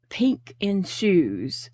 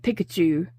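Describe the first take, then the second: First: It is said slowly and clearly. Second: It is said fast and run together.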